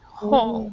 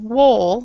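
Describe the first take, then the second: First: The word starts with an h sound, no w. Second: The word starts with a sounded w. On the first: The speaker calls it right. "it's actually pronounced whole" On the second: The speaker calls it wrong. "this W right here is silent"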